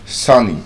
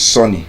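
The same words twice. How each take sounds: First: "Sunny." with the open "uh" sound, "sah-ny"; correct caret vowel. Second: "sunny" said as "sonny", with an o; the wrong way: "sunny" with an o vowel; mispronounced. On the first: Teacher modelling for students, "Sunny." with "uh". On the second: Teacher showing the Nigerian mistake, "sunny" as "sonny". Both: Shown as a demonstration. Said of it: "You don't say".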